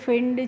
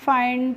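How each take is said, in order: First: The vowel is a short 'i' sound. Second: The vowel is a long 'eye' sound. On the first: The speaker calls it wrong. "इस तरीके से नहीं पढ़ना है" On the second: The speaker calls it right. "जो भी होगा last में उसे हम आई करके पढ़ रहे हैं"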